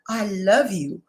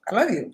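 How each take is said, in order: First: It is said warmly, with emotion. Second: It is said flatly, without feeling.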